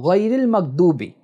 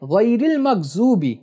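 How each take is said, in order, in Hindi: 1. यह अक्षर सादे d की आवाज़ में बोला जाता है। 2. यह अक्षर z की आवाज़ में बोला जाता है। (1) "यानी वाद को दाल पढ़ते हैं" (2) "यानी वाद को जो पढ़ते हैं"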